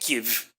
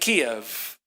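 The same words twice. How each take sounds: First: The name is pronounced the Ukrainian way. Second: The name is pronounced the Russian way. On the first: It shows support for Ukrainians. "I'm supposed to be patriotic and supportive of the Ukrainians by pronouncing it Kiev" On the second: It follows an older habit. "I'm an old school guy. I get it by way of Russian, by way of Yiddish"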